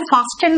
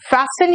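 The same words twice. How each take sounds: First: The t sound in the middle is pronounced. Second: The t sound in the middle is silent. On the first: The speaker calls it wrong. "इसको फास्टन मत कहना" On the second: The speaker calls it right. "टी यहां पे silent होता है"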